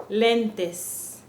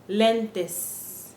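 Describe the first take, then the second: The two takes are said the same way.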